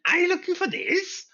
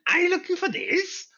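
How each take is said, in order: First: It is said in a put-on character voice. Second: The same.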